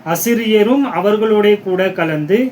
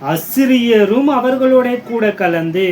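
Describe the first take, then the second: The two takes are said the same way.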